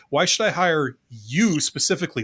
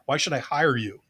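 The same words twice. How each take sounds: First: "I" lifted and stressed, "specifically" pressed; falling tune after a stressed "I". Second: "hire" leaned on as the key word, the wrong emphasis; falling tune landing on "hire"; stress on hire. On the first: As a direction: lean on "I" as if the interviewer picks you over everyone. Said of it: "they're saying". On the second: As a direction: punch "hire" like the job itself is the point. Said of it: "the emphasis is not on the word hire". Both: Shown as a demonstration.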